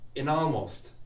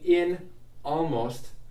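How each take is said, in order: First: The n sound links into the next word. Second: The words are said separately, without linking. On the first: "let's put this N on the next word. I'm going to say nalmost" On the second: "instead of saying in almost"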